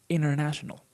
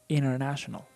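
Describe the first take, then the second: No difference in how they are said.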